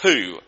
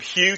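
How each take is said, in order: First: The name starts with a plain 'h' sound. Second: The name starts with a 'hy' glide sound. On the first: "That's how they say it in Norfolk" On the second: "I tried to get her to say it properly"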